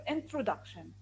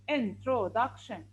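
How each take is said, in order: First: Said in the usual way. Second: "Introduction" slowly split, in, tro, duc, tion; syllable by syllable. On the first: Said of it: "let's continue the word introduction". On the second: Shown as a demonstration. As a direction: sound out "Introduction" in four slow parts. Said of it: "divide the word introduction into syllables".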